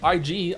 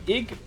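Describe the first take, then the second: First: The name is said as two separate letters. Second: The name is said as a single word.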